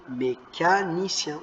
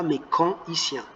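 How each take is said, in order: First: Mécanicien dit lentement, ni-en bien prononcé; bonne prononciation. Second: Mécanicien dit avec un son an, méca-an-icien; mauvaise prononciation. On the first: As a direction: dis Mécanicien avec le n lié au i. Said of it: "On ne dit pas mécanicien". (Mécanicien lu lentement, me-ca-ni-cien) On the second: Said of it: "On ne dit pas". (mécanicien mal prononcé, avec le son an) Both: Shown as a demonstration.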